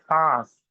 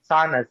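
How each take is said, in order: First: Saas with a long nasal a. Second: Sanas with an extra n syllable; wrong sanas. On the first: Teacher modelling the right saas. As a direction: draw out saas through the nose. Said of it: "We say saas". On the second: Teacher showing the wrong sanas. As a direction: split sanas with a sounded n. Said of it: "We don't say sanas". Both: Shown as a demonstration.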